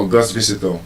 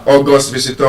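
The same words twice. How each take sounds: First: AuGUST visitor, stress the end of August; August with the beat on GUST; stress on second syllable. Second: AUgust visitor, punch the first syllable of August; August with the beat on AU; stress on first syllable. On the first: Teacher offering the class the other choice, second-syllable stress. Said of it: "First syllable or second syllable?". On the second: Teacher quizzing the class on August visitor, first-syllable stress. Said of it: "would you say we have an". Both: Shown as a demonstration.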